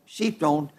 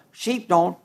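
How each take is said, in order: First: Repeated much softer and lower; quiet echo. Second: Said in the usual way. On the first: Shown as a demonstration. Preacher repeating his point to the congregation, softly. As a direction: let "Sheep don't." drop to a soft low echo.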